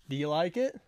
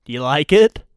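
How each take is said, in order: First: Much softer repeat of the question; hushed little check for approval; soft asking. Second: Louder, rising question; openly fishing for approval; eager asking. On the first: Same question repeated softly. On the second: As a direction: ask it out loud for approval. Host shows himself off, asks twice. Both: Real, not acted.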